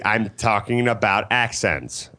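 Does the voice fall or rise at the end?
falls. The voice falls at the end.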